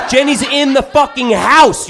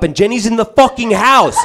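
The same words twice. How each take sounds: First: Higher again, laughing; laughing disbelief, pushed higher. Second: Higher, laughing disbelief; disbelieving laugh. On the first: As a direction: repeat it more stunned and laughing. Repeats shocked, even higher. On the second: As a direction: blurt it out half laughing. Shocked at Jenny inside house. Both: Retold or imitated.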